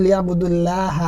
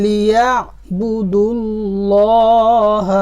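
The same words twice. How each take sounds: First: লিয়াবুদুল্লাহ with a thin open "laa" in ল্লাহ; light open Allah. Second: লিয়াবুদুল্লাহ drawn out with a rounded "lo" in ল্লাহ; heavy rounded Allah. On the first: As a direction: say লিয়াবুদুল্লাহ ending "dul-laah". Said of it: "লয়াকার লা এর মতো করে পড়তাম". (লিয়াবুদুল্লাহ-র ল্লাহ পাতলা "লা"-এর মতো করে) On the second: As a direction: recite লিয়াবুদুল্লাহ slowly, ending "dul-looh". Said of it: "ল এর মতো করে, শুধু ল এর মতো করে". (লিয়াবুদুল্লাহ-র ল্লাহ টেনে বাংলা "ল"-এর মতো মোটা করে) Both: Shown as a demonstration.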